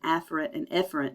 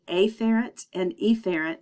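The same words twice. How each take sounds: First: The two words are said nearly the same. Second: The first vowels are exaggerated to sound clearly different. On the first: The speaker calls it right. "they sound so much alike" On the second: The speaker calls it wrong. "to make it clear, I say afferent and efferent, but ... that is incorrect pronunciation"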